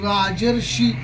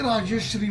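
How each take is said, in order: First: The middle cluster is said as 'rsh'. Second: The middle cluster is said as 'shr'. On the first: The speaker calls it right. "याचा उच्चारच होत नाही नीट" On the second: The speaker calls it wrong. "अनेक वक्ते राजश्री म्हणतात"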